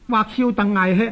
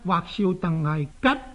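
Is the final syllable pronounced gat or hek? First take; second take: hek; gat. First: The final syllable is pronounced hek. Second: The final syllable is pronounced gat. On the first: This reading breaks the rhyme. The speaker calls it wrong. "咁就唔押韵" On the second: This reading makes the line rhyme. The speaker calls it right. "应该呢系读口吉……然后至押韵"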